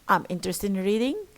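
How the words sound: The voice rises at the end.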